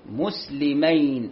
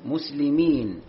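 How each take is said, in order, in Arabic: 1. تنتهي الكلمة بصوت المثنى -ayn. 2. تنتهي الكلمة بصوت الجمع -een. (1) "لأنها مثنى" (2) "وليست مسلمين"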